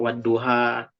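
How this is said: The final vowel is an open 'ah'.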